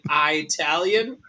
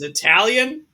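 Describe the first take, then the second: First: The first syllable sounds like the word 'eye'. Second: The first syllable sounds like a short 'ih'. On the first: The speaker calls it wrong. "I think that is ridiculous that anyone should pronounce it I Italian" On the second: The speaker calls it right. "It is Italian"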